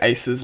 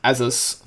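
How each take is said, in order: First: The name sounds like the word 'aces'. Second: The name sounds like 'asus'. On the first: This is how the speaker usually says it. The speaker calls it wrong. "I say Aces" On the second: This is probably how the name is meant to be said. The speaker calls it right. "but it's really like as Asus Asus three eighty. That's how you pronounce it, probably"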